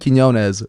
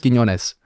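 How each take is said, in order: First: The name is said in a simplified, anglicized way. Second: The name is said in a native Spanish way. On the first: "dumbed down version" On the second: "Real version"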